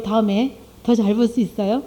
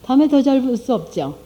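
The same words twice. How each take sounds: First: 더 lifted in a rising question, 다음에 더 잘 볼 수 있어요 asked upward; preacher asks the congregation, 더 rising on a doubtful question; rhetorical question. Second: 다음에 stressed, 없죠 falling flat and final; preacher answers her own question, 다음에 stressed with a falling close. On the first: Pose it as a question rising on 더. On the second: Settle it with a fall after 다음에. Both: Shown as a demonstration. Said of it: "그냥 놔두면 어때요?".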